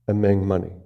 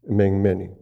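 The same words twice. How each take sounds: The two takes are said the same way.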